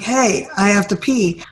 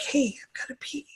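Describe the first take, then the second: First: It is said loudly. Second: It is said quietly.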